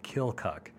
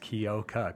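First: A light L sound is slipped into the middle. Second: It is said as spelled, with no L sound. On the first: This is how people from the area say it. "with a little L in there" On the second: This is how people from outside the area say it. "kind of how it's spelled out"

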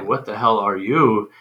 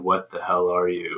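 First: It rises at the end like a question. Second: It falls at the end like a statement.

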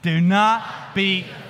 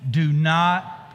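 First: It is said with more energy and spunk. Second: It is said in a plain, calm way. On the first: "do it a little bit more spunk" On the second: "Can you say that with me?"

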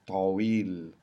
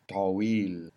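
No difference in how they are said.

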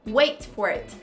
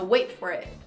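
First: The T in wait is clearly pronounced. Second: Said fast, the T in wait nearly disappears.

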